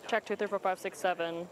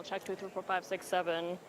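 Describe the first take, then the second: First: Said in the usual way. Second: Muffled behind a hand; hand over mouth. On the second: Real, not acted. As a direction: talk through a covered mouth. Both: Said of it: "Is it muffled now?".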